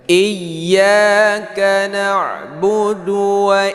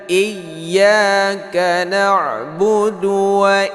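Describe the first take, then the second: Both takes have the same delivery.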